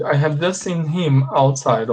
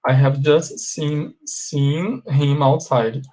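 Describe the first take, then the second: First: Said in the usual way. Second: Slow, careful dictation pace; slow model sentence. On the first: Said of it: "teacher models the sentence". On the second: Shown as a demonstration. Teacher repeats the sentence to class, slow and deliberate. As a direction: spell out each word for learners. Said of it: "teacher repeats slowly for class".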